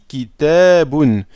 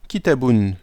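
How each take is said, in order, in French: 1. La voyelle de la deuxième syllabe est allongée. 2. La voyelle de la deuxième syllabe est courte. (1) "j'ai prolongé ici kitabun" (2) "J'ai pas dit kitabun"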